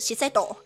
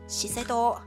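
First: The pitch rises mid-word, English style. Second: The pitch stays level, then falls, Japanese style. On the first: The speaker calls it wrong. "也不是Shiseido" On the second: The speaker calls it right. "其实是Shiseido"

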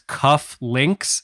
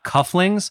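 First: The word ends with a 'links' sound. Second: The word ends with a 'lings' sound. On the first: The speaker calls it right. "it's cuff links" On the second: The speaker calls it wrong. "not cufflings"

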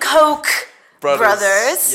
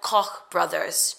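First: Koch is said like the English word coke. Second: Koch is said with a German-style final sound. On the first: The speaker calls it right. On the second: The speaker calls it wrong.

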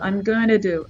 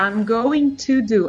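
First: It is said fast, with the words run together. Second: It is said slowly, with every syllable clear.

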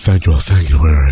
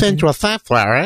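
First: It is said in a very breathy voice. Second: It is said in a plainer, less breathy voice.

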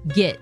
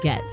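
First: The vowel sounds like the i in 'git'. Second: The vowel sounds like the e in 'bet'. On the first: The speaker calls it wrong. "there's no I in get" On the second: The speaker calls it right. "instead of get"

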